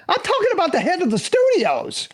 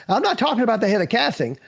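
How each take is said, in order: First: "studios" driven home in a high pitch; emphatic correction. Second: "casting" dismissed in an ordinary pitch; contrastive set-up. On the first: Actor boasting whom agent took him to, emphatic "studios". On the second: Actor telling how agent walked him round, contrastive stress on "casting". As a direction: set "casting" up as the lesser thing. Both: Real, not acted.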